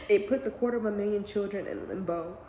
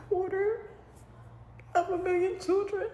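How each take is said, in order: First: Said in the usual way. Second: High, cracking voice close to tears; words catch as the tears come; real tearful break. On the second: Real, not acted. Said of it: "I'm trying not to cry".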